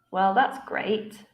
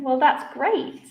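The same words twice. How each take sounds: First: Slow, sarcastic fall on "great"; falling intonation. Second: "great" lifted high with enthusiasm; rising intonation. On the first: Teacher showing students sarcasm, falling intonation. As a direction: drop "great" as if not meaning it. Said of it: "falling intonation". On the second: Teacher showing students enthusiasm, rising intonation. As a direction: let "great" rise up, genuinely enthusiastic. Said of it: "I used a rising intonation". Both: Shown as a demonstration.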